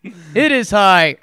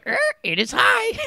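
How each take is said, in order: First: Said in the usual way. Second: Much higher squawking parrot voice. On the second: Shown as a demonstration. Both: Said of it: "I like the parrot voice one".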